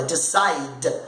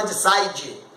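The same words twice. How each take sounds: First: "decide" ending firmly on d; silent final E. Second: "decide" ending in a Brazilian djee; wrong final vowel. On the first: Teacher modelling the correct word, silent E. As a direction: lower "decide", no vowel after the d. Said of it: "você fala decide". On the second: Teacher showing what not to say, vowel ending. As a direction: sound the silent E in "decide" as dee-jee. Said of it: "você não fala decide". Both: Shown as a demonstration.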